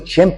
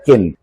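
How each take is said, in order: First: The name starts with a ch sound. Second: The name starts with a k sound. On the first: The speaker calls it right. "النطق الصحيح ليها" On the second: The speaker calls it wrong. "في ناس بتقول عليها كن"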